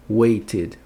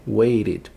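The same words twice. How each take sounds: First: "waited" as WAY-tid with a clear T; strong T. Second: "waited" as WAY-rid with a tapped T; weak T. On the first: Teacher modelling the id ending, "waited" with crisp T. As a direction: sound the T fully in "waited". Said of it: "Som de id no final". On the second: Teacher offering the other option, "waited" with flapped T. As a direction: soften the T of "waited" into a quick flap. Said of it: "pronunciar esse T aqui". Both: Shown as a demonstration.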